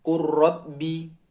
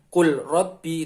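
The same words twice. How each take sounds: First: "Qur Rabbi" slowly, l dropped, r doubled; lam merged into ro. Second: "Qul Rabbi" with a clear l before r; unmerged lam. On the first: Teacher corrects to the merged reading, lam gone into ro. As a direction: run "Qur Rabbi" together on a long rolled r. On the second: Teacher shows the wrong reading, lam sounded separately. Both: Shown as a demonstration.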